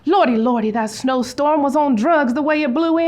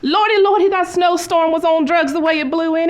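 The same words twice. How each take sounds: First: It is said with low energy. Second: It is said with high energy.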